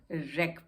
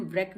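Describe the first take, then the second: First: रेक said lower, starting on R; no W sound in रेक; silent W. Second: व्रेक with a V-like sound before R; wrongly sounded W. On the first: Teacher sums up the reading, रेक with silent W. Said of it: "रेक पढ़ेंगे". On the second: Teacher repeats what not to read, व्रेक with W. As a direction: put the W back into व्रेक. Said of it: "व्रेक नहीं पढ़ेंगे". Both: Shown as a demonstration.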